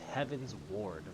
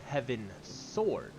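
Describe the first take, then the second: First: The S joins heavens, then the word ward. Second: The S joins the second part, making sword. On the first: Heading towards the heavens. The speaker calls it right. "It's Heaven's Ward, like you're heading towards the heavens" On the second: A sword of heaven. The speaker calls it wrong. "I have always thought of it as Heaven Sword"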